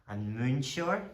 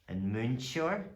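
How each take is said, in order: No difference in how they are said.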